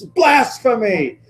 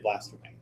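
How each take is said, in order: First: The word is said loudly, almost shouted. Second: The word is said plainly, without force. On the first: The speaker calls it right. "with feeling, exactly" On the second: The speaker calls it wrong. "You can't just say blasphemy"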